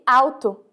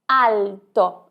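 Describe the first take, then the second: First: The L sounds like a 'u' vowel. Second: The L is a clear tongue-tip 'l'. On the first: The speaker calls it wrong. "a letra L tem o mesmo som que a letra U" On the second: The speaker calls it right. "Veja só como L é bem pronunciado"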